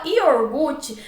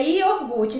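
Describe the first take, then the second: First: "iogurte" with the r moved forward: ior-GU-te; wrong pronunciation. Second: "iogurte" with the r after gu: io-GUR-te; correct pronunciation. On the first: Teacher showing an ortoépia error, "iogurte" said as iorgute. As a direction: misplace the r in "iogurte", saying iorgute. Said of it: "cometendo um erro de ortoépia". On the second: Teacher giving the correct form, careful "iogurte". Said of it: "a forma correta é iogurte". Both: Shown as a demonstration.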